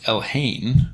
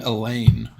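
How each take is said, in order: First: The name is said with an h sound, El-hain. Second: The name sounds like the English name Elaine. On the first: The speaker calls it right. "First of all, it's Elhain" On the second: The speaker calls it wrong. "Ash loves to say Elaine"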